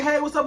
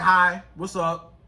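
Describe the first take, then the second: First: Said in the usual way. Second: Low, slow, dry greeting; indifferent. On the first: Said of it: "and he say". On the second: Acted. Woman showing how to answer a man's text, indifferent. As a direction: greet him like you don't even care. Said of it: "act like you don't even care".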